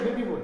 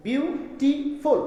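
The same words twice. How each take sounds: First: Said in the usual way. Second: "বিউটিফুল" very slowly, syllable by syllable; broken into syllables. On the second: Shown as a demonstration. Teacher showing the word can be broken, slow syllable breaks. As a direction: split বিউটিফুল into three parts with gaps, biu-ti-ful. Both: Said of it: "দেখো এটাকে ভাঙা যাচ্ছে".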